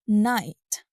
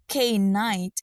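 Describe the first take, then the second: First: The word starts with no k sound. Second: The word starts with a sounded k. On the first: The speaker calls it right. "instead of night" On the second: The speaker calls it wrong. "pronouncing night as K-night"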